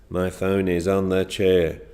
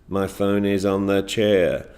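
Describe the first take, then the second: Both takes have the same delivery.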